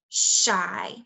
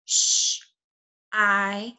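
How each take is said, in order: First: Said in the usual way. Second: "Sh-" as a voiceless hush, pause, then a long "I"; tapped-out sounds. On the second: Shown as a demonstration. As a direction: sound out "Sh-" and "I" separately. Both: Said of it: "I'm gonna tap it out".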